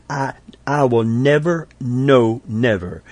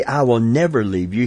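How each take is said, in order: First: First "never", then a firm "no, never"; emphatic never. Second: Said in the usual way. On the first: Shown as a demonstration. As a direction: stress on "never", then "no, never" pushed out. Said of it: "He said". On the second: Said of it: "he didn't just say".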